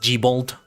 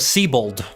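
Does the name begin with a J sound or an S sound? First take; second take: J sound; S sound. First: The name begins with a J sound. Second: The name begins with an S sound.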